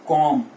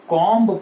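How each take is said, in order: First: The final b sound is silent. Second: The final b sound is pronounced. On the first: The speaker calls it right. "बी is silent" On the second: The speaker calls it wrong. "तो यहां पे हमने इसको कॉम्ब पढ़ा"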